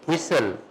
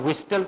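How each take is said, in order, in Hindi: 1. बीच में "t" की ध्वनि साइलेंट है। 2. बीच में "t" की ध्वनि बोली जाती है।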